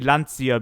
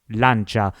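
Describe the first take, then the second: First: The name is pronounced a non-Italian way. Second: The name is pronounced the Italian way. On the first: The speaker calls it wrong. "I used to say Lancia ... I made that mistake" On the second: The speaker calls it right. "The real Italian pronunciation of the Lancia brand is actually Lancia"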